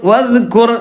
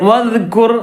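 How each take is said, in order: Both takes have the same delivery.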